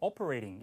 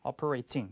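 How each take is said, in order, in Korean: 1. "t" 소리는 부드러워요, 거의 가벼운 r 소리 같아요. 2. "t" 소리는 강하고 확실하게 터뜨려요. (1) "호주 영어는 t 발음을 미국처럼 이렇게 우리말 리을처럼 부드럽게 발음하는 경우가 많아요" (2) "이게 조금 더 t를 둔탁하게 하는 것은 영국 발음"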